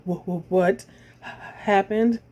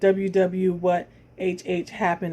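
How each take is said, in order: First: The stutters are said as repeated initial sounds. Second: The stutters are said as spelled letter names.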